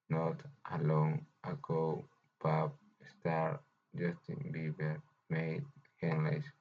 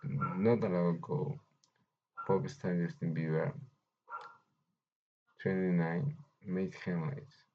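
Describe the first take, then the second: First: It is read with a pause after every word. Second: It is read in phrase groups with few pauses.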